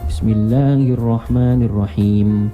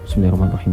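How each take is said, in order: First: It is recited slowly and calmly. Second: It is recited quickly and hurriedly. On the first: This follows the Prophet's calm way of reciting. The speaker calls it right. "Contohnya begini, tenang tuh yang tenang" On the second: This is a rushed way of reciting. The speaker calls it wrong. "Jangan begini. ... Dia ini cepat"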